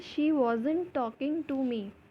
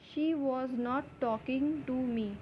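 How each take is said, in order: First: Was and not are joined into wasn't. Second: The words was and not are said separately. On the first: "इसलिए हम इसे वॉजंट भी बोल सकते हैं।" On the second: "हम वॉज नॉट इतना लंबा नहीं बोल सकते"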